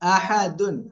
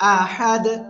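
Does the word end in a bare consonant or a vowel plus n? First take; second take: vowel plus n; bare consonant. First: The word ends with a vowel plus n. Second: The word ends on a bare consonant. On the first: The reading continues on without stopping. "দাল দুই পেশ দুন" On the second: The reader stops at this word. "সাকিন দিয়ে পড়বো।"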